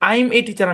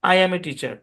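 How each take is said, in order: First: 'I am' is shortened into one syllable. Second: 'I am' is said as two syllables. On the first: The speaker calls it wrong. "আমি বলি না" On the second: The speaker calls it right. "আমি বলি"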